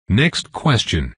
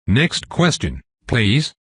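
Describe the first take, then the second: First: Said in the usual way. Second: "please" lifted at the end with sugary politeness; a sweetly innocent nudge onward; mock-sweet request. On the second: A narrator's reading. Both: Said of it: "I sweetly suggest".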